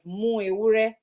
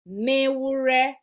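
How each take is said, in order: First: The u vowel is kept before ewure. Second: The u vowel is dropped before ewure. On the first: The speaker calls it wrong. "You can say muewure. ... but that would be too much if we put the U in it" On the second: The speaker calls it right. "We have mewure because of the elision that has taken place"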